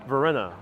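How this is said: The name is said with English pronunciation. "I'm pronouncing it in English"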